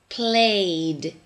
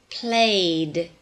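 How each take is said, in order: Both takes have the same delivery.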